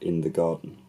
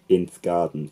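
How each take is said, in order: First: The article is said in full with a vowel. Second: The article is reduced to a bare th sound.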